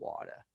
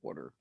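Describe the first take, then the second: First: It is said in a New York accent. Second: It is said in a Philadelphia accent.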